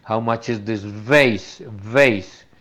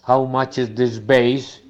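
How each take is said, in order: First: Vase with a buzzing v, stressed; the right vase; correct v in vase. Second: Vase said as base with a b; slow question with a b in vase; learner's mistaken vase; wrong v in vase. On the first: Shown as a demonstration. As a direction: lean on the v in vase. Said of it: "Otra cosa es cuando uno dice". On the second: Retold or imitated. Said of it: "el tipo no entiende".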